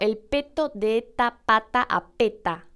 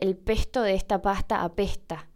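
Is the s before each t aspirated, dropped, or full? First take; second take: dropped; aspirated. First: The s before each t is dropped entirely. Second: The s before each t is softly aspirated. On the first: "tampoco digo" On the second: "Hay un sonido antes de la T. Es un sonido que no es s, sino una especie de S aspirada"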